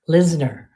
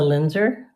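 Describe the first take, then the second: First: The name is said with s before n. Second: The name is said with n before z. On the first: The speaker calls it right. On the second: The speaker calls it wrong.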